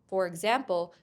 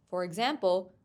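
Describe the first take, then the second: The two takes are said the same way.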